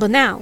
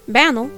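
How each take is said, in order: First: It rhymes with canal, stressed on the second syllable. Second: It rhymes with flannel, stressed on the first syllable. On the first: "which rhymes with canal" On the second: "like flannel"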